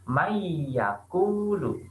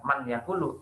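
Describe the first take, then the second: First: The n merges into a nasalized y sound. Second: The n is pronounced clearly before the y. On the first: The speaker calls it right. "Nunnya seakan-akan melebur jadi mayakulu" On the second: The speaker calls it wrong. "bukan man yakulu"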